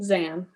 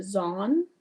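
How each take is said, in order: First: "Zan" said with a short a, as in "can"; corrected pronunciation. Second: "Zon" said with an open ah vowel, rising as a question; guessed pronunciation. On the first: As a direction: confirm "Zan", rhyming with "Ann". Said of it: "It probably just sounds different". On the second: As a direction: try "Zon" with a broad ah, unsure. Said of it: "How is it pronounced?". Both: Shown as a demonstration.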